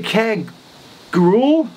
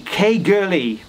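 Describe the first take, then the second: First: The name ends with a 'grawl' sound. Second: The name ends with a 'gurley' sound. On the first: This is how it looks when read as English. The speaker calls it wrong. "looking at it, I would say" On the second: This is how locals say it. The speaker calls it right. "Phonetically, David tells me that it's"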